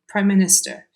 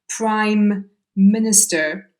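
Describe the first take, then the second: First: Prime is shortened to pri without the m. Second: Prime is said in full with its m sound. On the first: The speaker calls it right. "we reduce uh, prime down to pri" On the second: The speaker calls it wrong. "we never say Prime Minister because that's kind of too many M sounds"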